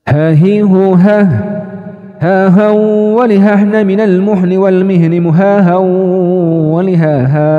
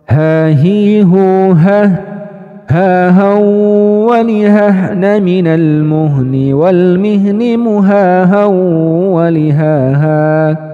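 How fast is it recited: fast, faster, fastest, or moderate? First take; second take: fastest; fast. First: It is recited at the fastest speed. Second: It is recited somewhat faster than standard. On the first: "Kalau bisa lebih cepat lagi, lebih cepat lagi" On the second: "kecepatan yang lebih naik satu level"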